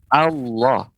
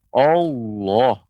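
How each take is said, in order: First: It is said with flat, unrounded lips. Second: It is said with pushed-out, rounded lips. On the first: The speaker calls it right. "Itu pengucapan yang yang tepat" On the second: The speaker calls it wrong. "tidak boleh monyong bibirnya. Misalnya yang keliru"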